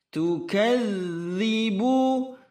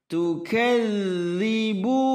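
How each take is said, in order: Both takes have the same delivery.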